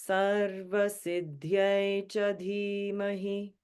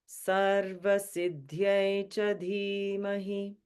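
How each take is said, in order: Both takes have the same delivery.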